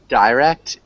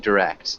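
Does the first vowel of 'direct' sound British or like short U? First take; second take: British; short U. First: The first vowel is the British-sounding one. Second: The first vowel is a short U sound. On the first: "It sounds more like British English" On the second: "generally, we would say direct"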